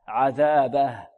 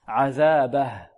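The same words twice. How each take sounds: Both takes have the same delivery.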